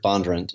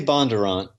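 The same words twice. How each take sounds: First: The last syllable is said quickly and clipped. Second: The last syllable is said fully, not rushed. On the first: This is how locals in the county say it. "they kind of allied the last a little quicker" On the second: This is how the family says it. "We say Bondurant"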